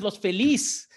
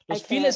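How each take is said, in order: First: The name is said with Spanish pronunciation. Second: The name is said with English pronunciation. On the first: The speaker calls it right. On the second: The speaker calls it wrong.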